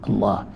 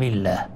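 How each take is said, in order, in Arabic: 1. صوت اللام مفخم وثقيل. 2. صوت اللام رقيق وخفيف. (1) "وتفخيمه خاص بلام الجلالة في الابتداء" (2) "لماذا رقق اللام لنقبله والكسر"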